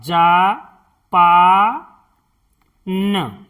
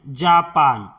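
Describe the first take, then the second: First: Japan drawn out slowly as जा-पा-न; slow syllable-by-syllable. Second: Said in the usual way. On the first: Shown as a demonstration. Teacher sounding out Japan to show how to write it, slowly. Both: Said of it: "इस तरह से".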